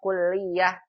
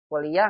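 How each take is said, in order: First: The l sound is doubled and held longer. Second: The l sound is short and single. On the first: This is the Arabic way of saying it. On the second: This is the Indonesian way of saying it. "Kuliah nggak ada tasydidnya"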